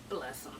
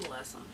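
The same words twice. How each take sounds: The two takes are said the same way.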